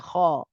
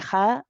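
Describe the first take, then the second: First: The kh sound is heavy, tongue back raised. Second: The kh sound is light, tongue back lowered. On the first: The speaker calls it right. "the kha is a heavy letter" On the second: The speaker calls it wrong. "we don't say kha"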